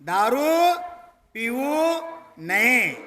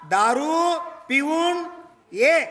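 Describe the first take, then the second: First: The break falls before the n sound. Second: The break falls after the n sound. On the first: Do not drink liquor. "ದಾರೂ ಕುಡಿಬಾರ್ದು" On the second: Come back after drinking liquor. "ನಯೇನ್ ಶಬ್ದ ಇತ್ಲ ನ ತೆಗೆದು ಈಚೆಗಡೆ ಹಾಕಿದ"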